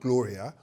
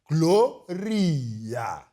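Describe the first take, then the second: First: The name is said with an English-style pronunciation. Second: The name is said with a local South African pronunciation. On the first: The speaker calls it wrong. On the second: The speaker calls it right.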